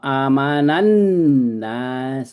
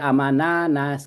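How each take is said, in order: First: The n sound is held and doubled. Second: The n sound is short and single. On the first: The speaker calls it right. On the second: The speaker calls it wrong.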